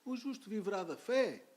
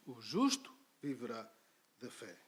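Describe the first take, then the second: First: It ends with a rising, questioning tune. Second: It ends with a falling, stating tune.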